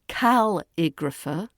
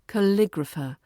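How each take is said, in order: First: The stress is not on the syllable lig. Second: The stress is on the second syllable, lig. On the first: The speaker calls it wrong. "Don't say calligrapher" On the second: The speaker calls it right. "The stress falls on lig"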